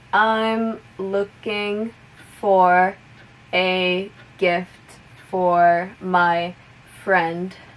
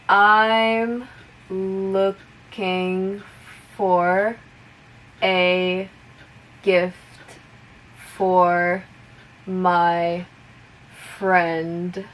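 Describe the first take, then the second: First: The sentence is spoken at moderate speed. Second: The sentence is spoken slowly. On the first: "a little bit faster" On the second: "I'll repeat it slowly first"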